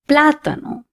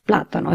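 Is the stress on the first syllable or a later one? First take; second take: first; later. First: The stress falls on the first syllable. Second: The stress falls on a later syllable. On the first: The speaker calls it right. "because of the accent, I'm going to say plátano" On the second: The speaker calls it wrong. "instead of plátano"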